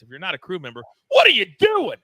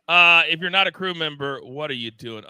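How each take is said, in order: First: Crew slogan shout. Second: Said in the usual way. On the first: Shown as a demonstration. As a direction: build up to a big shouted what are you doing. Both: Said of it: "we like to say it like this".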